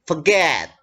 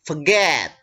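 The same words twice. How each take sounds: The two takes are said the same way.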